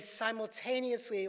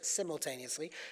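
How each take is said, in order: First: It is said with an American accent. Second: It is said with a British accent.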